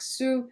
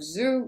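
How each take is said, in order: First: It starts with a voiceless s sound. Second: It starts with a voiced z sound.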